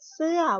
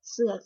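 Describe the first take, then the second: First: The syllable is said with a falling tone. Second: The syllable is said with a low tone. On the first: "วรรณยุกต์เสียงโท" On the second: "คือวรรณยุกต์เสียงเอก"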